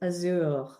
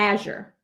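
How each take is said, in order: First: It is said with a French accent. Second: It is said with a Southern US accent.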